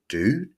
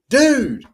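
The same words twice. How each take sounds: First: It is said as a wary, suspicious question. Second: It is said in a friendly greeting tone. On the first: The speaker suspects the listener of an attack. "are you sneaking up behind me, fixing to weld me in the back of the head with a hammer?" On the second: The speaker is saying hello. "dude, hi"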